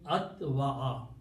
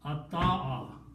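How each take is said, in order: First: A w sound is heard in the middle. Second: A long a replaces the w sound. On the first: The speaker calls it wrong. "It is not easy to pronounce" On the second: The speaker calls it right. "We change Waw to an Alif because the sound is now balanced"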